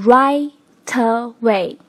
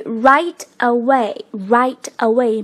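First: "right away" broken slowly into righ-ta-way; slow righ... ta... way, t starting the second syllable; linked, syllable by syllable. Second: "right away" as two distinct words, slowly; unlinked. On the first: Teacher demonstrating the linking slowly. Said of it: "变成". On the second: Teacher introducing the phrase, unlinked. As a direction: say "right" then "away", not joined. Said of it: "同样也要做一个连读的处理". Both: Shown as a demonstration.

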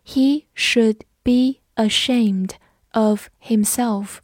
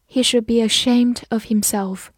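First: Slow, carefully separated words; slow read-along. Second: Said in the usual way. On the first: Shown as a demonstration. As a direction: read it slowly for learners to follow. (慢速逐词领读) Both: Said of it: "我们慢读一遍".

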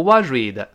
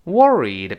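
First: "worried" with a buzzy 'zh'-like middle R; mispronounced R. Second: "Worried" with the tongue curled for the middle R. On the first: Teacher warns learners with a faulty take, "worried" as 'wuh-zhweed'. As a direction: say "worried" as 'wuh-zhweed', tongue not properly curled. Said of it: "不要读worried". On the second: Teacher models the word for learners, "Worried" with curled R. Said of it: "别忘中间那个R有勾舌头". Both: Shown as a demonstration.

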